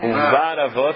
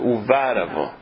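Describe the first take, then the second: First: The stress in 'uvara' falls on 'ra'. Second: The stress in 'uvara' falls on 'va'. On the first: The speaker calls it wrong. "todo mundo fala Uvar Avo, mas está errado" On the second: The speaker calls it right. "Esse tracinho significa que é paroxítona"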